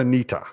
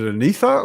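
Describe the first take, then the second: First: The middle consonant is a plain 't' sound. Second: The middle consonant is a 'th' sound. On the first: "or a t?" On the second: "Is it pronounced as a th"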